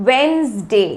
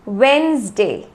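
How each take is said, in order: Both takes have the same delivery.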